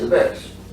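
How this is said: Bears ends with a hissing s sound.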